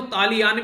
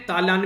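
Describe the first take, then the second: First: तालियान in three syllables, taa-li-yaan; surname pronunciation variant. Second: तालान in two syllables, taa-laan; shortened surname variant. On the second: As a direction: say तालान without the "i" glide. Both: Shown as a demonstration. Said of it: "अलग-अलग तरीके से इसको pronounce भी किया जाता है".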